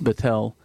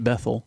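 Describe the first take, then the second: First: The middle consonant is a hard T sound. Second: The middle consonant is a soft th sound. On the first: The speaker calls it right. "a hard T" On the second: The speaker calls it wrong. "not Bethel"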